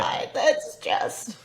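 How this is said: It is said in a put-on old lady voice.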